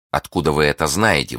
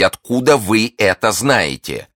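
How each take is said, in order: First: Understated agitation, near normal pitch; agitated question. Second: Slow, high, emphatic question; insistent demand. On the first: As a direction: ask with a touch of alarm. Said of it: "взволнованно спросила миледи". (слегка взволнованно) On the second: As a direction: demand it word by word. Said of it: "повторила миледи". (настойчиво, с расстановкой) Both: A narrator's reading.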